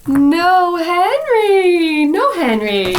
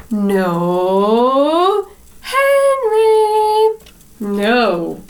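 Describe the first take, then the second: First: Caterpillar's reply. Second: Ladybird's reply. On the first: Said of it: "The caterpillar says". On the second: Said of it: "It says". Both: A narrator's reading.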